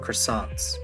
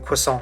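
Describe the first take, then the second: First: The word is said with plain English sounds. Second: The word is said with French-like sounds. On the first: The speaker calls it wrong. "which is not how you pronounce it" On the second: The speaker calls it right. "I'm not gonna say croissant"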